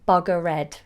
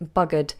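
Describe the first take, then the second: First: The ending is pronounced as an extra syllable. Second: The ending is a plain D sound. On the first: The speaker calls it wrong. "be careful not to say buggered" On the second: The speaker calls it right. "with a D at the end"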